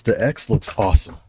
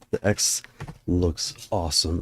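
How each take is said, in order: First: Said in the usual way. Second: Whispered. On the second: Real, not acted. Repeats phrase whispered.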